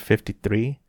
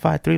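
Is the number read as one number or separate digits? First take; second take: one number; separate digits. First: It is read as one whole number. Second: It is read as two separate digits.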